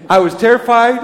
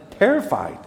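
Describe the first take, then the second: First: "terrified" hit loud; emphatic terrified. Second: Terrified repeated with a falling stress. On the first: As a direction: lean hard on "terrified". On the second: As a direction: say "Terrified" again with weight, falling at the end. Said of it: "I am". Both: Shown as a demonstration.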